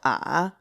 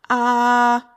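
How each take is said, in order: First: The pitch starts very low, then rises slightly. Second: The pitch stays high and level. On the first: "speak at the lowest point you possibly can, and then raise your pitch up a little bit" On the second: "the first tone is going to be a straight tone"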